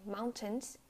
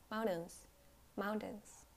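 First: "mountains" as "moun-tens" with released T; full T. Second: "mountains" ending in "in", T not released; unreleased T. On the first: Teacher showing the wrong way, "mountains" with full T. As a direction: pop the T in "mountains". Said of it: "You don't say mountains". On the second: Teacher showing American English, "mountains" with swallowed T. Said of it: "you don't pronounce the T". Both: Shown as a demonstration.

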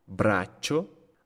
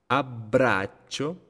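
First: Braccio with a stop before "cho", rising; held double C. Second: Abbraccio slow, with stops on BB and CC, rising; held double B. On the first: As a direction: hold the CC inside braccio. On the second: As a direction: pause after "ab" in abbraccio. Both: Shown as a demonstration. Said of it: "la pausa que hago".

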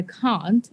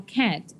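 First: "can't" with a long open "ah" vowel; British CAN'T. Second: "can't" with a front "a" as in "cat"; American CAN'T. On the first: Student showing her mixed accents, British "can't" as "cahnt". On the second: Student showing her mixed accents, American "can't" rhyming with "rant". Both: Shown as a demonstration. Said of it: "And they speak American. You just get a handful of Brits".

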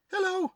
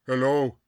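First: Very high-pitched put-on greeting; high spirit voice. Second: Low-pitched spirit-guide hello; caricatured spirit chief. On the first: Spirit greeting the newcomer, high put-on voice. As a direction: call it out in a high character voice. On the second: Acted. Spirit chief greeting the newcomer, low voice. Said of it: "when you do my voice".

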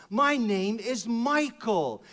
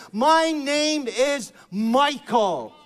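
First: Said in the usual way. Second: "My name is Michael" very slow, high and loud; proclaimed name. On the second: Real, not acted. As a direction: declare it like a triumph. Preacher proclaims his name.

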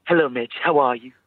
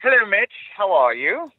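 First: Said in the usual way. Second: High, loud posh British greeting; posh British accent. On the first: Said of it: "trying to knock off my really posh British accent". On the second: Pretend. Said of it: "my really posh British accent".

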